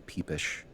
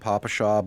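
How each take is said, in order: First: It is said as two syllables, peepish. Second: It is said as three syllables, papasha. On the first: This is the speaker's own favored way to say it. "must confess a certain fondness for the term peepish" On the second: This is the common way people say it. "I know most people pronounce it Papashaw"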